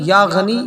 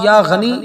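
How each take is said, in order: No difference in how they are said.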